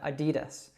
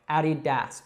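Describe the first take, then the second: First: The name is run together and shortened. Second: The name is said as two separate parts. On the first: It is the usual everyday name of the brand. The speaker calls it right. "We actually shorten it to Adidas" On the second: It spells out the founder's nickname and surname. The speaker calls it wrong. "we don't say it like that"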